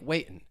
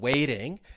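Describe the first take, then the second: First: A glottal stop for the T, ending in 'in'. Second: A flap for the T, ending in 'ing'. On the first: "I'm going to drop the G, and it may sound like waiting" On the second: "from a flap T in waiting"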